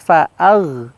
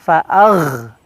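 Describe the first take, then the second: First: The gh sound is smooth and soft. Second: The gh sound is rough and harsh. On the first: The speaker calls it right. "lebih halus" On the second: The speaker calls it wrong. "jangan terlalu kasar. Fa'agh, yang nggak boleh"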